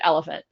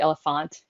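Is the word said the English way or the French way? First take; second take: English; French. First: The word is said with English pronunciation. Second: The word is said with French pronunciation. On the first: "we do pronounce it elephant" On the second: "not necessarily elephant, even though it's it's a French um, spelling"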